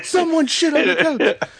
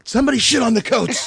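First: High, half-yelled echo; repeated bit. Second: High yelled comedy bit; imitating a comic's shout; Dane Cook shout. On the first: Retold or imitated. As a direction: lighter second take of the bit. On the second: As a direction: belt it like a standup punchline. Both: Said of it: "the old Dane Cook bit".

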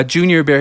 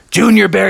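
First: Said in the usual way. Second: "Junior Bear" called out a little louder; calling out. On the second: Acted. Bubby calls to Junior Bear in the car, calling out. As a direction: call "Junior Bear" to get his attention.

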